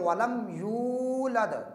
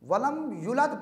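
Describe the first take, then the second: First: The vowel after the y is held long. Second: The vowel after the y is cut short. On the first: The speaker calls it right. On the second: The speaker calls it wrong.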